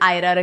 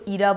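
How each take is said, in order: First: The name begins with an 'eye' vowel. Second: The name begins with an 'ee' vowel. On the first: The speaker calls it right. "हमने इसकी pronunciation आयरा रखी है" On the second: The speaker calls it wrong. "काफ़ी लोग इसको ईरा बोलेंगे"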